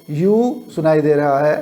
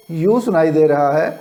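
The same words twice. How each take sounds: The two takes are said the same way.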